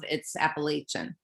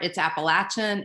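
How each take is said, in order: First: It uses the northern US pronunciation. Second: It uses the southern US pronunciation. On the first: The speaker is from Virginia or further north. "If you're like Virginia and above" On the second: The speaker is from the southern United States. "in the southern part"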